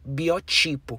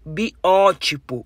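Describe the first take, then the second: First: The stress is on the second-to-last syllable. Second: The stress is on the third-to-last syllable. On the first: "palavra paroxítona não acentuada" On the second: "uma palavra proparoxítona"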